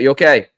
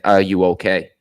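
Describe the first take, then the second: First: The word 'are' is dropped entirely. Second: Every word is said, starting with 'are'. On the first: The speaker calls it wrong. "We're bouncing in" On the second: The speaker calls it right. "the real way to say that is"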